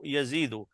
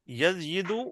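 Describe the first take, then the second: First: The i vowel follows directly with no y. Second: A y sound comes before the i vowel. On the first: This is the form that is easy on the tongue. The speaker calls it right. "Which one is easy to say?" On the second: This is the underlying form before the change. The speaker calls it wrong. "Yazyidu will change into Yazidu"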